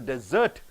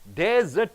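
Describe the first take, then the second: First: The stress is on the last syllable. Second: The stress is on the first syllable. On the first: It is used as a verb. "last syllable if you stress" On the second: It is used as a noun. "first syllable if you stress"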